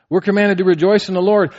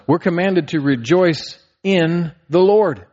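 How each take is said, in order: First: We're commanded to rejoice in the Lord said higher and louder; preaching emphasis. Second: Said in the usual way. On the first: Shown as a demonstration. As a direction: drive it home to the congregation. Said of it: "repeated with force". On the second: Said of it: "preaching builds".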